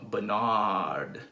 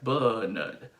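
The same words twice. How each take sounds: First: The stress is on the second syllable. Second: The stress is on the first syllable. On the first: "In American pronunciation, where you stress the second syllable of my name" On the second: "in the U K pronunciation, you will stress the first syllable"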